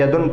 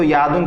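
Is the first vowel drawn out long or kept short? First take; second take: short; long. First: The first vowel is kept short. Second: The first vowel is drawn out long. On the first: The speaker calls it right. "बल्कि यदुन पढ़ना है" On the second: The speaker calls it wrong. "खींच कर नहीं पढ़ना है"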